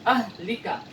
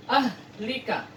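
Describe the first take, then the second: First: "Ahlika" with the h pressed in the throat; throaty h reading. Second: "Ahlika" with a pressed throaty h; throaty h reading. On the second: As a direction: press the h hard. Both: Shown as a demonstration. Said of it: "harus ditekan ya".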